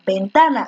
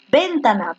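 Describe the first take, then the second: First: Ventana stressed on TA; stress on second-last syllable. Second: Ventana with the first syllable stressed; testing syllable stress. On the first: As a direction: ventana said as ven-TA-na. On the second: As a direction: ventana said as VÉN-ta-na, as a test. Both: Shown as a demonstration. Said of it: "ventana es grave".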